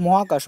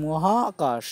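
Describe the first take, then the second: First: Said in the usual way. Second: মহাকাশ with the middle আ held long; stretched vowel. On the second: Shown as a demonstration. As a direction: draw out the হা in মহাকাশ. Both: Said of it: "আয় শুধু উচ্চারণ আসছে".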